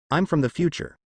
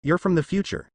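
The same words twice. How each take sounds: First: Said in the usual way. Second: Higher, incredulous slow repeat; disbelieving. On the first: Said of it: "Azula was silent ... before responding". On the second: A narrator's reading. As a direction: echo it in disbelief. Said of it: "She repeated slowly, disbelief in her voice".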